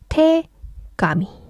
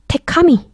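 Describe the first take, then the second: First: The middle consonant is a voiced g sound. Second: The middle consonant is an unvoiced k sound. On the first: The speaker calls it right. "그래서 합쳐질 때는 테가미" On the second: The speaker calls it wrong. "테카미 이러시면 안 돼요"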